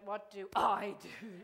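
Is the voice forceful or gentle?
forceful. The voice is loud and forceful. The speaker calls it wrong. "most of you went"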